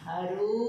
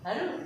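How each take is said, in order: First: The final vowel is long and drawn out. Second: The final vowel is short and clipped. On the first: The person called is far away. "దీర్ఘం ఇచ్చి పలకాలి" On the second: The person called is close by. "దగ్గరగా ఉంటే మనం అరు అంటున్నాం"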